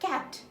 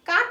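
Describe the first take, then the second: First: The vowel is the 'a' of 'apple'. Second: The vowel is an open 'ah' sound. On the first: The speaker calls it right. "কি হয়? ক্যাট" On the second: The speaker calls it wrong. "কাট না হয়ে"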